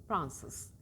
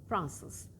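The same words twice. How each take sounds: The two takes are said the same way.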